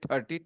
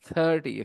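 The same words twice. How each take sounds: First: It begins with a hard, aspirated t-like sound. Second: It begins with a soft, breathy th sound. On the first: The speaker calls it wrong. "instead say thirty, thirty, th for Thatera" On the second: The speaker calls it right. "It is thirty, okay?"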